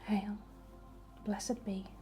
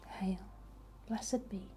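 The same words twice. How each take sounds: The two takes are said the same way.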